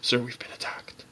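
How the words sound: The words are whispered very quietly.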